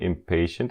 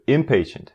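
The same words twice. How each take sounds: First: The stress is on the second syllable. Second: The stress is on the first syllable. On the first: The speaker calls it wrong. "Não é impatient" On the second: The speaker calls it right. "Força no M"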